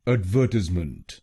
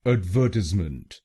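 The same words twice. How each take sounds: Both takes have the same delivery.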